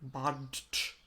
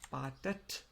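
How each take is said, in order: First: It ends with a bare T, no extra syllable. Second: It ends with an added E syllable before T. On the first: The speaker calls it wrong. "Otherwise we would say badet, which is also a bit hard" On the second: The speaker calls it right. "But then E here to make the pronunciation easier"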